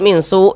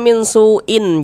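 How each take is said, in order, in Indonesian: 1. Kata ini berakhir mendadak dengan bunyi hamzah mati. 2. Kata ini berakhir dengan akhiran -in yang utuh. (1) "ini kita baca min su" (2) "jangan dibaca min suin"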